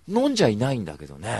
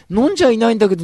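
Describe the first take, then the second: First: Said in the usual way. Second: A sudden high yell on the repeat; high loud shout. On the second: Shown as a demonstration. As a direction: belt it out much higher and louder. Repeats line, second take shouted.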